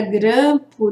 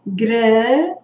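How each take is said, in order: First: Said in the usual way. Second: "Grampo" split in two, first syllable held long. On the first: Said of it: "nós temos duas sílabas". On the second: Shown as a demonstration. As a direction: stretch the first syllable of "Grampo", then pause before the second. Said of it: "eu emiti a voz gran". ("Grampo" em duas sílabas separadas, alongando a primeira)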